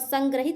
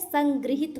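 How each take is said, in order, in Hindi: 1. बीच का अक्षर 'grah' की तरह बोला जाता है। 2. बीच का अक्षर 'gri' की तरह बोला जाता है। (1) "संग्रहित नहीं होता है" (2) "संगृहित होता है"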